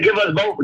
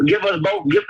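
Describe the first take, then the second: First: Said in the usual way. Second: Higher insistent repeat. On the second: Real, not acted. Pleading with Sonetta for time, higher insistent. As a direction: give us both, pitched much higher. Repeating request, pitch jumps.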